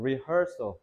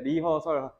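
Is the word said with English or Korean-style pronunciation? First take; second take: English; Korean-style. First: It is said with English sounds and stress. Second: It is said with syllable-by-syllable Korean sounds. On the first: The speaker calls it right. "rehearsal이라고 해야 돼" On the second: The speaker calls it wrong. "리허설 정직하게 발음하시면 안 돼요"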